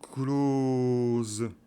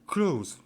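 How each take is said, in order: First: The vowel is stretched out very long. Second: The vowel is only moderately long. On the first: "là c'est en exagérant" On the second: "tout simplement"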